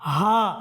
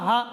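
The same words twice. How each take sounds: First: The vowel is held for a longer time. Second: The vowel is cut short quickly. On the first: The speaker calls it right. "এক আলিফ সমপরিমাণ টান হবে" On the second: The speaker calls it wrong. "এভাবে যদি বলি তাহলে আমাদের মধ্যে এই আলিফটা চলে যাবে"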